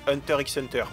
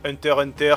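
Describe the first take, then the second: First: The middle X is spoken aloud. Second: The middle X is left silent. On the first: This is how the speaker grew up saying it. "je dis Hunter x Hunter. J'ai grandi avec l'idée que c'était un X qu'il fallait prononcer" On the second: This is the version other people prefer. "si vous préférez"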